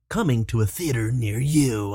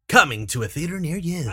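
First: It is said in a creepy way. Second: It is said like an upbeat trailer announcer.

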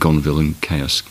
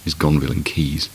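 First: The last word sounds like 'chaos'. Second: The last word sounds like 'keys'. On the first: The speaker calls it wrong. "often mispronounced" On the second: The speaker calls it right.

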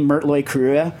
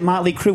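First: The first word is said as 'Mertloy'. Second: The first word is said as 'Motley'. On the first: "Shouldn't it be Mertloy Crue?" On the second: "why do they pronounce it Motley Crue with all the umlauts?"

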